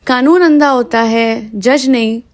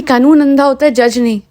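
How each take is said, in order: First: Slow emphatic repeat. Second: Said in the usual way. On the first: Retold or imitated. Podcaster repeating a film line for listeners, slow and emphatic. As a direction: draw out "कानून अंधा होता है", slower and deliberate.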